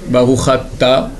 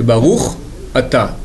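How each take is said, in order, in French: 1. Les deux mots sont enchaînés, sans pause. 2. Les deux mots sont séparés, avec une pause. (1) "on fera attention de ne prononcer pas" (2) "En hébreu, il n'y a jamais de liaison"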